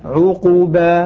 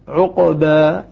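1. الحرف الأوسط القاف تتبعه ضمة. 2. الحرف الأوسط القاف لا تتبعه حركة. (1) "وإذا ضممنا قلنا عقوبة هكذا بإشباع ضمة" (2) "عندما نسكن نقول"

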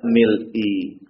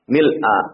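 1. Kata itu diakhiri dengan vokal i. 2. Kata itu diakhiri dengan vokal a. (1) "atau tidak mil'i" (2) "Jadi dibacanya mil'a. Ya. Tanda nasabnya itu fathah"

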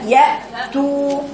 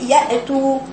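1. الهمزة بتقطع الصوت بقوة. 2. الهمزة خفيفة، مش مقفولة بالكامل. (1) "لا اقطعي الصوت ياتوا" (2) "بعض الناس تقول ياتوا"

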